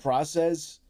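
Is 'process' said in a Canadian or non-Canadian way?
non-Canadian. The word is said with a non-Canadian pronunciation. The speaker calls it right.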